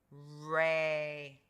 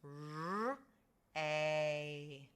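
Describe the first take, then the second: First: Said in the usual way. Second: "R, a" in two held sounds; sounded out. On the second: Shown as a demonstration. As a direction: draw out "R", pause, then long "a". Teacher sounds out ray by parts.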